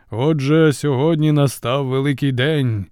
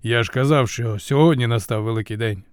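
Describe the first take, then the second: First: Raised, ceremonial proclamation; solemn announcement. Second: Understated, mildly annoyed repetition; vexed reminder. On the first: Zeus sums up his speech to the gods, solemn announcement. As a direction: declare it grandly to the assembly. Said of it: "урочисто сповістив хмароносець". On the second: Zeus repeats himself to the war god, mild vexation. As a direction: remind him in an everyday voice, a touch vexed. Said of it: "прикро поправив Зевс". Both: A narrator's reading.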